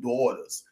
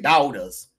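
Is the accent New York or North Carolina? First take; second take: New York; North Carolina. First: It is said in a New York accent. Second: It is said in a North Carolina accent.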